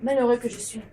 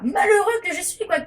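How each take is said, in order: First: It is said calmly, like a detached thinker. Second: It is said in anguish, like a desperate cry.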